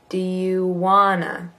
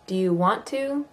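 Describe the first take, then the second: First: The two words blend into one short reduced word. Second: Both words are said fully with a clear T. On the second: "Versus want to"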